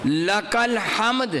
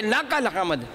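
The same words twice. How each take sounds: First: لک الحمد with a short لا sound swallowed, slow; wrong short lam. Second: لک الحمد with short لا; the erroneous لک الحمد; wrong reading. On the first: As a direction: say لک الحمد clipping the لا. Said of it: "اللہ نہ کرے کو پڑھ دے". (غلط پڑھائی، لا کو چھوٹا کر کے) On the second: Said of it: "لک الحمد پڑھیں گے تو معنی اتنا غلط ہو گیا". (غلط تلفظ میں لک الحمد) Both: Shown as a demonstration.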